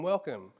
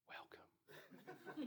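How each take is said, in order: First: The word is spoken aloud in a warm voice. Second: The word is whispered quietly. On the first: The speaker sounds friendly and welcoming. The speaker calls it right. "I'm trying to be smiling, I'm trying to be open" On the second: The greeting feels creepy. The speaker calls it wrong. "whispered in your ear"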